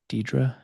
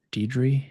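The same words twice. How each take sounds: First: Deidre said as DEE-druh, rising question; Deidre ending in -uh. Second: Deidre said as DEE-dree, questioning; Deidre ending in -ee. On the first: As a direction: try Deidre with a final "uh" sound. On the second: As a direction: try Deidre with a final "ee" sound. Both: Shown as a demonstration. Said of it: "how do I say your name".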